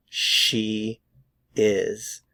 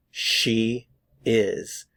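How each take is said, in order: Both takes have the same delivery.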